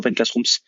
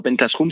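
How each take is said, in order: First: The last word ends with an s sound. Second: The last word ends without an s sound. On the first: The speaker calls it right. "c'est Open Classrooms" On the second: The speaker calls it wrong. "c'est pas Open Classroom"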